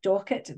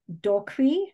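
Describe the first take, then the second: First: The name is said in a plain English way. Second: The name is said in a French-like way. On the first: The speaker calls it right. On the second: The speaker calls it wrong.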